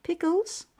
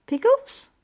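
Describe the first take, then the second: First: Mom asks lightly, rising on the word "Pickles"; "Pickles?" with a gentle questioning lift; curious question. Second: Much higher and louder astonished "Pickles?"; shocked echo. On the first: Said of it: "Then Mom said". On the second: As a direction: squeak out "Pickles?" in disbelief. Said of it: "I said". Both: Acted.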